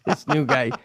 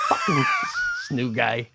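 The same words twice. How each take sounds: First: Said in the usual way. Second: Laughing. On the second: Real, not acted. Laughing mock complaint.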